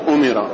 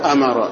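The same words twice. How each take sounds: First: The word begins with a u vowel. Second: The word begins with an a vowel. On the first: "والثاني بضم الهمزة وكسر الميم" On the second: "أظهرهما بفتح الهمزة"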